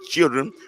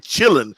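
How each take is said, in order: First: It is said fully, with the clear -dren ending. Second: It is said clipped, ending in a soft -lin. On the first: "We didn't say children" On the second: "That's just a southern way of saying children"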